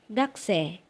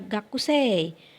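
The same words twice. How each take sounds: First: Not every written sound is fully pronounced. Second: Every written sound is pronounced as spelled. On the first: The speaker calls it right. "Ucapkan gakusei" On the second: The speaker calls it wrong. "jangan dibaca gakusei"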